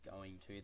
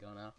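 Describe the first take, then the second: First: Both words are said fully and separately. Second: The words are squished into one short word. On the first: "instead of saying going to" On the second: "Australians tend to squish their words up"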